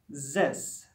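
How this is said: The word starts with a buzzing z sound. The speaker calls it wrong. "French speakers may pronounce this as this"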